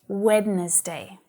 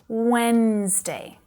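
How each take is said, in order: First: The word is said with three syllables. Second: The word is said with two syllables. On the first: The speaker calls it wrong. "I still hear my students saying Wednesday" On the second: The speaker calls it right. "it only has two"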